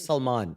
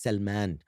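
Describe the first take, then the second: First: The name has a South Asian pronunciation. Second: The name has an Arabic pronunciation. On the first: "very Pakistani subcontinent style" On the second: "Salman in Arabic or Persian"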